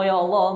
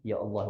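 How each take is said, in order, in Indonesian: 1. Diserukan dengan keras dan lantang. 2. Diucapkan dengan lembut dan pelan. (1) "Dia bukan Allahumma ya Allah. Bukan" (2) "dia sebut khafif"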